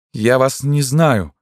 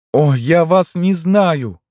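First: High, slow cry of denial. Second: Very high, drawn-out, slow wail; anguished cry. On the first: Tormented woman disowns the man, crying out. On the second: Tormented woman repeats her denial, anguished cry. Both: A narrator's reading. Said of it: "крикнула она".

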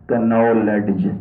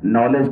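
First: "کنالج" with the k sounded, k-nowledge; slow "کنالج", voicing the k before the n; mispronounced silent k. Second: Said in the usual way. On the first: Shown as a demonstration. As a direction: say knowledge as "کنالج", drawn out. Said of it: "کوئی شخص اگر کہہ دے نا". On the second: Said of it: "کوئی شخص اگر کہہ دے".

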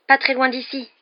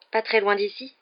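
First: High, loud breaking news; excited schoolboy, pitched way up; overexcited. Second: Raised pitch, "Pas très loin d'ici" turned into a question; "Pas très loin d'ici" as a questioning echo, without shouting; questioning repeat. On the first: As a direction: blurt the gossip to friends, thrilled. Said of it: "l'air surexcité". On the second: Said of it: "répéta Ron". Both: A narrator's reading.

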